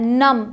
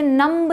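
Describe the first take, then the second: First: नम ending on m, no b; silent b. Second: नम्ब with the b sounded at the end; wrong pronunciation. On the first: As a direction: close नम on a humming m. (नम में ब बिल्कुल चुप) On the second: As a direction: add an audible b after m in नम्ब. (नम्ब में ब बोलकर) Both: Shown as a demonstration. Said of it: "इसे नम्ब नहीं पढ़ते".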